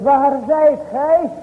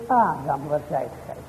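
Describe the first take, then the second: First: Calling out. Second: Soft, low "waar zijt gij" said quietly to himself; barely spoken, dropped low, no calling at all; not called out. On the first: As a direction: call it out slowly across a distance. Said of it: "Maar hij roept". (luid en langzaam roepend, "zijt" uitgerekt) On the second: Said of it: "dan zegt hij nog niet eens". (zacht en laag, niet geroepen) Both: Shown as a demonstration.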